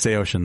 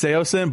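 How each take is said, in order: First: The name is said like 'say ocean'. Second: The name is said like 'say-sin'. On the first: This is the original way the name was said. The speaker calls it right. "That is the correct way to say it" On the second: This is the popular way people say it. The speaker calls it wrong. "I say it's Seosin"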